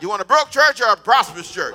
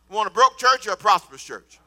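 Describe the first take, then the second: First: Louder, shouted repeat of the question. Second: Said in the usual way. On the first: Shown as a demonstration. Pastor asking the church again, shouting. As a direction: throw the question out loud to the room. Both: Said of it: "Say it loud".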